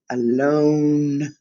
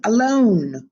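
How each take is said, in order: First: Drawn-out Alone, not shouted. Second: Louder alone. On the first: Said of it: "So I guess he didn't shout it". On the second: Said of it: "didn't shout it". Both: Shown as a demonstration.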